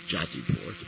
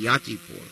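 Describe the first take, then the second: First: The name begins with a J sound. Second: The name begins with a Y sound. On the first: "Some say Jatipur, depending on your pronunciation" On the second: "Sanskrit pronunciation would be Yatipur"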